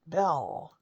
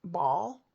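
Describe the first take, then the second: First: "Bell" whispered clearly with a falling end; correct pronunciation. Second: Put-on "Ball?" as a child says it, a questioning rise for bell; grandson's try at bell, rising "Ball?"; child mispronouncing. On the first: Shown as a demonstration. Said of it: "That's a bell". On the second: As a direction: say "Ball?" like a toddler trying the word bell, rising. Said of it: "He looks at it".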